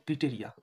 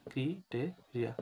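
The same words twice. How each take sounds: First: Said in the usual way. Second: criteria slowly, broken into syllables. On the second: Shown as a demonstration. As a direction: sound out criteria piece by piece for spelling. (Criteria ভেঙে ভেঙে, ধীরে) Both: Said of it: "একটু বানানটা দেখিও".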